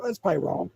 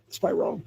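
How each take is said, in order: First: Said in the usual way. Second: Whispered to himself. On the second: Shown as a demonstration. Doubting himself aloud about posting, in a whisper. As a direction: breathe it out as an aside.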